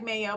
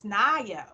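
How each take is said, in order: First: The name starts with an M sound. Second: The name starts with an N sound. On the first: The speaker calls it wrong. "It looks like mayo" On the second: The speaker calls it right. "but it's nayo"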